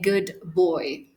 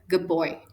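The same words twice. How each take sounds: First: The d at the end of good is pronounced. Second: The d at the end of good becomes b. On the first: The speaker calls it wrong. "I'm not going to say good boy" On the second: The speaker calls it right. "It's like the duh is not even there"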